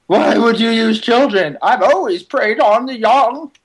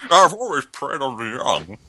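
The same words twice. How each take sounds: First: Creepy croaking villain voice; lightly voiced vulture villain. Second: Slow, imitated Bane villain voice. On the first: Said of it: "That's my vulture voice". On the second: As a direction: mimic a slow Bane growl. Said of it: "You sound kinda like Bane".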